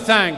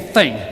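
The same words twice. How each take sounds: First: The vowel is drawn out like 'thang'. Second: The vowel is a short plain 'thing'.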